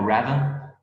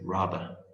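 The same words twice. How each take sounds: First: It is said with an American accent. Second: It is said with a British accent.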